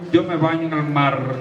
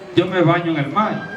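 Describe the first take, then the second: First: The final r of 'mar' is long and dragged. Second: The final r of 'mar' sounds like i. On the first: The speaker is from the south. "un sureño" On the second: The speaker is from the Cibao region. "un cibaeño diría"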